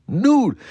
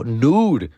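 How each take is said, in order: First: Nude. pitched higher and punched; emphatic repeat. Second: Said in the usual way. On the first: Shown as a demonstration. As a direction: hit Nude. higher the second time.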